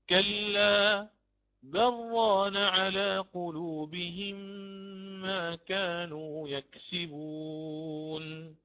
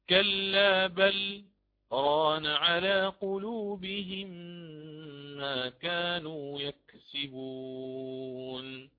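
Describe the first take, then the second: First: Bal merges straight into raan with no pause. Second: A brief pause follows bal before raan. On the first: "فأقرأ بالإدغام أيضا" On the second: "أسكت على اللام من كلمة بل"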